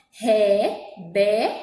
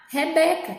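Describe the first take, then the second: First: REBECA broken slowly into Re, be, ca; split into syllables. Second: Said in the usual way. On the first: Shown as a demonstration. Teacher counting syllables for pupils, Rebeca broken into three slow beats. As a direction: say Rebeca syllable by syllable, pausing between. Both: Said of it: "tem três sílabas".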